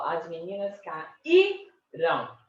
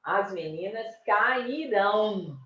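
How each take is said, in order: First: Slow "caíram" broken up, weight on the Í; stressed middle syllable. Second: Slow "cairão" with the weight on ÃO; final-syllable stress. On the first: Teacher showing the strong syllable, penultimate stress. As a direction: hold the Í of "caíram", then a short unstressed ending. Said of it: "a sílaba mais forte aí é caíram". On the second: Teacher showing where stress falls, final-syllable stress. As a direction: land hard on the last syllable of "cairão". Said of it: "Olha a sílaba forte onde que cai". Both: Shown as a demonstration.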